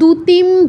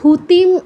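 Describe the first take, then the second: First: It begins with a plain d sound. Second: It begins with a breathy dh sound. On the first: "এগুলো বলা যাবে না" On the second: "এগুলো বলা যাবে না"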